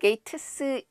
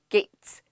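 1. T와 S 사이에 모음이 끼어 있다. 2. T와 S가 합쳐져 하나의 'ts'가 된다. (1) "게이트스 읽지 말고"

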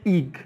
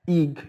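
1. الحرف صوته طويل ومنزلق 'ay'. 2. الحرف صوته طويل ومنزلق 'ay'.

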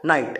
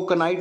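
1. इस शब्द की शुरुआत n से होती है, k की आवाज़ नहीं। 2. इस शब्द की शुरुआत में k बोला जाता है। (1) "इसको के साइलेंट है" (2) "कनाइट नहीं पढ़ते"

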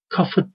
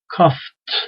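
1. Son t'den önce fazladan bir ünlü gelir. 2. Son t, f'den hemen sonra gelir; araya ünlü girmez. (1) "Kafıt değil yani"

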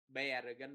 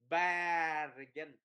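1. Nguyên âm đầu là âm 'e'. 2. Nguyên âm đầu là âm 'a' mở. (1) "bargain là sai" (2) "há rộng cái miệng"

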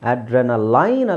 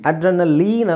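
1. ಕೊನೆಯ ಉಚ್ಚಾರಾಂಶ 'line' ಗೆ ಪ್ರಾಸವಾಗುತ್ತದೆ. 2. ಕೊನೆಯ ಉಚ್ಚಾರಾಂಶದಲ್ಲಿ ದೀರ್ಘ 'leen' ಧ್ವನಿ ಇದೆ. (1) "ಅಡ್ರೆನಲೈನ್ ಅಲ್ಲ" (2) "ಅಡ್ರೆನಲೀನ್ ಅಲ್ಲ"

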